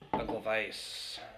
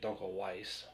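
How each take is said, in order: First: The w sounds like a v. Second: The w sounds like an English w. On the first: This is the original German way. "It's like a V and it smo- flows smoothly into the next one" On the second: This is how Americans say it. "here in America we just say"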